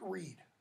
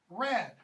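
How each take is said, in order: First: The vowel is a long 'ee'. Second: The vowel is a short open 'a'. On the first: This is how the word is said today. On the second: This is the older form of the word.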